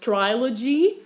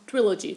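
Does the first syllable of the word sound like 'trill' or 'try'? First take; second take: try; trill. First: The first syllable sounds like 'try'. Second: The first syllable sounds like 'trill'. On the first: The speaker calls it wrong. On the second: The speaker calls it right.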